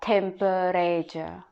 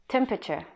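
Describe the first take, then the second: First: The word is said with four full syllables. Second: The word is said with only three syllables. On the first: The speaker calls it wrong. "if you read it, you're gonna read it like temperature" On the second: The speaker calls it right. "only three syllable"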